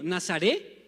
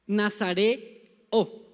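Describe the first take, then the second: First: Said in the usual way. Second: Nazareo stretched very slowly, every syllable held; drawn-out model word. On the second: Shown as a demonstration. Preacher slowly models Nazareo for the congregation. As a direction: say Nazareo slowly so the church can repeat it. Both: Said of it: "Digan conmigo".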